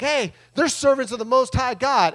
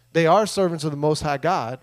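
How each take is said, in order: First: Light, higher-pitched mock announcement; lightly voiced girl calling out, pitched up; imitated slave girl. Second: Said in the usual way. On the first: Slave girl pointing out Paul's group to everyone, lightly mimicked high call. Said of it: "this girl's like".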